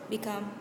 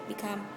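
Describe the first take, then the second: The two takes are said the same way.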